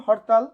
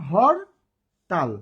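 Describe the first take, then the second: First: Said in the usual way. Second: hartal split as "hor - tal" with a clear pause; syllable by syllable. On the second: Shown as a demonstration. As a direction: say হর, stop, then তাল. (হরতাল দুই ভাগে, থেমে থেমে) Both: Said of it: "কয়বারে উচ্চারণ করছি?".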